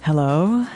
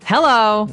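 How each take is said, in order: First: The greeting is said softly. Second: The greeting is said forcefully.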